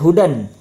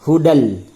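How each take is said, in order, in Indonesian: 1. Kata ini berakhir dengan bunyi n. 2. Kata ini berakhir dengan bunyi l. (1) "Tidak dibaca hudan" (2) "akan tetapi dibaca hudal"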